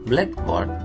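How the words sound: The stress falls on the first part. The meaning is non-literal. "ketika diucapkan blackboard itu menjadi compounding"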